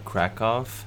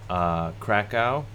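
First: It is said with a Polish-style local pronunciation. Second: It is said with a plain English pronunciation.

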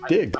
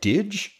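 First: The word ends with a hard g sound. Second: The word ends with a soft j sound. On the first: The speaker calls it right. "it's Dig" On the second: The speaker calls it wrong. "that seems so weird to say, like out loud, like Didge?"

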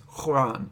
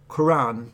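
First: The first consonant is made deep in the throat. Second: The first consonant is a plain K sound. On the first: "the Q sound was made at the back of the throat" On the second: "it's a different sound to a K"

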